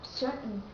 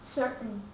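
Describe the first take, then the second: First: The T sound is cut off. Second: The T sound is cut off.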